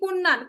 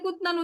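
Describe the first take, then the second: First: The middle consonant is an n sound. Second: The middle consonant is a t sound. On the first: The speaker calls it right. "হবে কি কুন্নান" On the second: The speaker calls it wrong. "কখনোই কুতনান উচ্চারণ করবেন না।"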